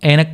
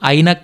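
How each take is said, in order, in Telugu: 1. మొదటి అచ్చును 'e' లాగా పలుకుతారు. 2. మొదటి అచ్చును 'ai' లాగా పలుకుతారు. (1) "హిందీ వాళ్ళు దీన్ని ఎలా పలుకుతారంటే చూడండి ఏనక్ ఏనక్ అంటారనమాట"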